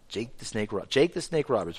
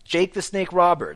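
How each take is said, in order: First: The name is said slowly and drawn out. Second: The name is said quickly and excitedly. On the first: The speaker calls it right. "You have to say it slower" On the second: The speaker calls it wrong. "You're saying it too excited"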